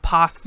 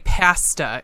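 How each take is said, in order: First: It is said with the usual non-Canadian vowel. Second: It is said with a Canadian vowel pronunciation. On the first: The speaker calls it right. "and not pasta" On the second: The speaker calls it wrong. "they're the people that all say pasta"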